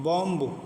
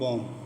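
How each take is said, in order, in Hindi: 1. आख़िर में b की आवाज़ सुनाई देती है। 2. शब्द m पर ख़त्म होता है, b पर नहीं। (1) "बॉम्ब नहीं करेंगे" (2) "बल्कि बॉम, बी साइलेंट"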